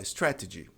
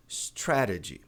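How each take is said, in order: First: "strategy" with a clear T in the middle; sounded T. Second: "strategy" with the middle T as a tapped R; flapped T. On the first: Teacher showing the less common option, sounded T. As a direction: keep the second T crisp in "strategy". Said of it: "Dá até pra falar". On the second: Teacher showing the more common way, flapped T. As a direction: tap the second T in "strategy". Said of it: "mas o mais comum". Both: Shown as a demonstration.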